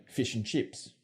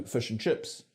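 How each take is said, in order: First: Aussie "feesh and cheeps"; Australian vowel. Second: "fish and chips" as "fush and chups"; New Zealand vowel. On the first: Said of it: "as opposed to Australian". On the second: Presenter contrasting accents, "fish and chips" with schwa. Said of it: "stressed I comes out as schwa". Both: Shown as a demonstration.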